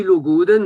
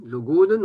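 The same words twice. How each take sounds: First: "le goden" stressed on "den", the last syllable, said higher and louder; final-syllable stress. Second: "le goden" stressed on "go", the next-to-last syllable; penultimate stress. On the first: Teacher showing the Vannetais final stress on "le goden". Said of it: "les vantais comprennent". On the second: Teacher showing standard stress on "le goden". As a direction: lean on "go" in "le goden". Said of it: "on appuie sur la, l'avant-dernière". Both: Shown as a demonstration.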